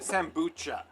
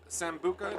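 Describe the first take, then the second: First: The name is said with a ch sound. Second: The name is said with a hard k sound.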